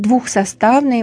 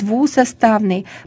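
First: A kh sound is heard before the s. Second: No kh sound is heard before the s. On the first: The speaker calls it wrong. "Не будем говорить «двухсоставный»" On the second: The speaker calls it right. "будем говорить «двусоставный»"

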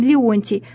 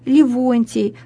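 First: The first vowels follow each other with no consonant. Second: A v sound is inserted between the first vowels. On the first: It is the standard pronunciation. The speaker calls it right. "правильно говорит" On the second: It is a colloquial pronunciation. The speaker calls it wrong. "в просторечии"

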